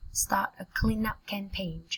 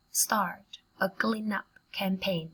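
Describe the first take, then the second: First: Said in the usual way. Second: Slow and measured with gaps between chunks; slow, in pieces. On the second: Shown as a demonstration. Teacher models a phrase for learners, slowly in pieces. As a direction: break the phrase into careful chunks.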